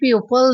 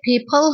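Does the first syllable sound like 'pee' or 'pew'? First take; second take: pew; pee. First: The first syllable sounds like 'pew'. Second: The first syllable sounds like 'pee'. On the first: The speaker calls it wrong. "इसे pupil नहीं बोलते" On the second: The speaker calls it right. "ये people होता है"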